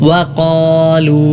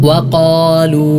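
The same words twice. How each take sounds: The two takes are said the same way.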